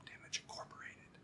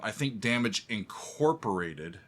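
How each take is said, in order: First: Whisper. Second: Said in the usual way. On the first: Shown as a demonstration. Fan showing the listener the song's whispered line, whisper. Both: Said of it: "and then the whisper".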